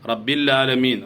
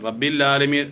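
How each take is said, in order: First: The ain sound is dropped, giving 'laalameen'. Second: The ain sound is dropped, giving 'laalameen'.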